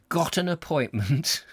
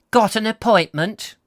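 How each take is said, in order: First: Said in the usual way. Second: Bored receptionist. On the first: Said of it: "G O T T E N E R". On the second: Acted. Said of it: "she asked in a slow, husky".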